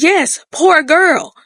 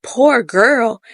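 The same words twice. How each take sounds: First: Put-on "Yes, poor girl" drawn out slow and higher, as a firm answer; emphatic confirmation. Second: Mildly mocked-up querying retort; questioning echo. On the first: Husband answers wife's doubt, insisting slowly on "poor girl". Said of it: "He says, "Yes, poor girl". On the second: Wife echoes husband's words about the girl, questioning. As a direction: repeat "Poor girl" back as a doubting question. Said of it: "And she's like".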